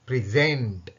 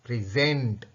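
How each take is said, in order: Both takes have the same delivery.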